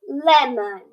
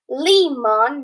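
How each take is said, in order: First: The first vowel sounds short. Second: The first vowel sounds long. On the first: The speaker calls it right. "it's lemon" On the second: The speaker calls it wrong.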